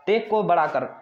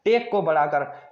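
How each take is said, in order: First: Said in the usual way. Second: Slow mnemonic. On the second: Shown as a demonstration. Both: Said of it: "marathon के लिए क्या".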